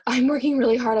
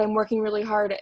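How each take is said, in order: First: Louder, higher protest of working hard; emphatic new recruit. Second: Said in the usual way. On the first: Retold or imitated. New recruit protesting to her mentor, louder. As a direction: insist you're working really hard. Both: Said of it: "they're like".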